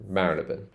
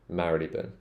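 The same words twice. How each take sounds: First: The name ends with a short 'bun' sound. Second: The name ends with a short 'bun' sound.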